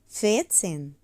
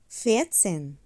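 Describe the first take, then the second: No difference in how they are said.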